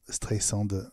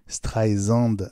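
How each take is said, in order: First: The middle consonant is a hissing s sound. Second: The middle consonant is a buzzing z sound. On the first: The speaker calls it right. "Siri dit bien Streisand" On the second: The speaker calls it wrong. "Siri disait Streisand"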